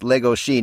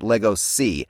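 First: The middle consonant is a 'sh' sound. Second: The middle consonant is an 's' sound. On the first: The speaker calls it right. "his character's name is actually pronounced Legoshi" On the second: The speaker calls it wrong. "not Legosi"

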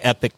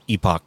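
First: The second syllable sounds like 'ick'. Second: The second syllable sounds like 'ock'. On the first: "Do it the American way" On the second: "one is a British British way you say it"

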